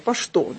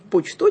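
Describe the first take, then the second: First: The middle consonant is pronounced as 'sh'. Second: The middle consonant is pronounced as 'ch'. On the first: The speaker calls it right. "а «пошто»" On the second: The speaker calls it wrong. "вот не «почто» читается"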